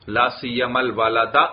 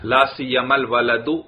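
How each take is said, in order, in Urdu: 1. آخری لفظ a مصوتے پر ختم ہوتا ہے۔ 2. آخری لفظ u مصوتے پر ختم ہوتا ہے۔ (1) "نصب پڑھنا بھی جائز" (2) "رفع پڑھنا بھی جائز"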